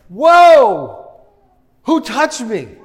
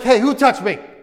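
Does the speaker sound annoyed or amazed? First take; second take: amazed; annoyed. First: It sounds awed, like feeling power leave him. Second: It sounds irritated, like being bumped in a crowd.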